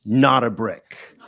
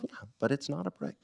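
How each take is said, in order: First: "Not" hit hard and slow, like all caps; stress on NOT. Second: Said in the usual way. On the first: Retold or imitated. Friend's all-caps text read aloud, "Not" punched slowly. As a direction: spell out the "Not" as if typed in capitals. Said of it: "he wrote all caps, first word". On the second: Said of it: "he wrote all caps".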